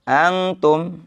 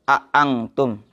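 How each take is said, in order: First: The second glottal stop is softened and lightened. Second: Both glottal stops are pronounced clearly and firmly. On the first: "dan diringankan" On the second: "tahqiq itu ditegesin"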